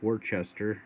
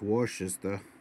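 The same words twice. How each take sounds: First: It is pronounced the Midwestern American way. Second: It is pronounced the East Coast American way. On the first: "us Midwesterners would call this Worcester" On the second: "over on the East Coast, it's Worcester"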